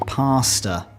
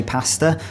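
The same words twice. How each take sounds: First: "pasta" with a long ah, PAH-sta; Aussie pronunciation. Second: "pasta" with the short a of cat; British pronunciation. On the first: Briton showing how Aussies say it, Aussie pronunciation. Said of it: "Aussies say pasta". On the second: Briton saying his own version, British short a. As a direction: say "pasta" as PASS-ta. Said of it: "Now, I say pasta". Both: Shown as a demonstration.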